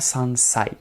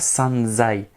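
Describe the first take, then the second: First: The 's' of 'sai' stays a voiceless 's'. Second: The 's' of 'sai' is voiced like 'z'. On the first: The speaker calls it right. "c'est bien sansai" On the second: The speaker calls it wrong. "pas sanzai"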